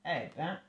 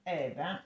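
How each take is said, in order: Both takes have the same delivery.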